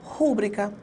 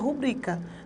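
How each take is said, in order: First: The stress is on the first syllable. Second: The stress is on the second syllable. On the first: The speaker calls it wrong. "quando eu falo rúbrica" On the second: The speaker calls it right. "na verdade a palavra é rubrica"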